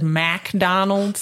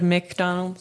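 First: It is said in a North Carolina southern accent. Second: It is said in a standard, general accent. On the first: This is how locals there say it. "the McDonald's accent because everyone there says McDonald's" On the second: This is how it is usually said elsewhere. "Instead of McDonald's"

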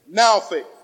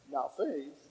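First: The stress falls on the word now. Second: The stress falls on the word faith.

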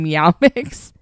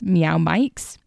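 First: The second word has a short 'i' vowel. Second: The second word has a long 'eye' vowel. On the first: The speaker calls it wrong. "In my head, it's always been Meow Mix" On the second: The speaker calls it right. "it's probably Mikes"

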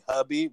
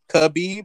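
First: The name begins with a breathy H sound. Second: The name begins with a hard K sound. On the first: The speaker calls it right. "it's actually Habib" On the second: The speaker calls it wrong. "the same way people call Khabib"

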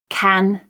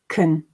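First: The vowel is full and unreduced. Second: The vowel is reduced to a schwa. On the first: "I'll read the strong and weak form" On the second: "just thinking about the ones with schwa"

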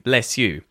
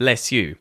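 First: The s and y stay as separate sounds. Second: The same.

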